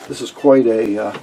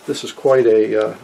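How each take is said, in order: Both takes have the same delivery.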